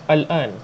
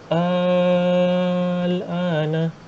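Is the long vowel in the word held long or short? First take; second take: short; long. First: The long vowel is said short. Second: The long vowel is held for six beats. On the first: This is how it is said in everyday conversation. "al-ana tak payah enam harakat tau" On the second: This is how it is recited by the recitation rules. "enam harakat"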